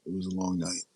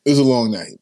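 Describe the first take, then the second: First: Quiet take. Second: Pushed out loud from a strained voice; louder take. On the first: Host repeating to chat how long the night was, softly. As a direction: let it fall away softly, tired. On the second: Host telling chat about last night, said loudly. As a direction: say it out, full voice. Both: Real, not acted. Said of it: "my voice is".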